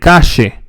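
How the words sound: The double L sounds like sh. The speaker is from Argentina. "in Argentina, they say shh"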